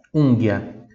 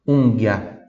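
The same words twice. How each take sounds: The two takes are said the same way.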